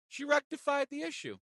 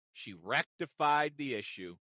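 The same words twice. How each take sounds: First: "rectified" said much higher, sing-song. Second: Said in the usual way. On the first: Shown as a demonstration. Teller repeating the good news in a high sing-song.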